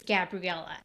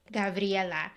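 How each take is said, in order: First: Gabriela with an English "gab" at the start; "gab-ree-EL-uh", English sounds; Anglicised pronunciation. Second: "gah-vree-EH-la", Spanish sounds; Spanish pronunciation. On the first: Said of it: "then I just have to say". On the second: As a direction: say Gabriela the Spanish way, open "ah" vowels. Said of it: "if I say it, like". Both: Shown as a demonstration.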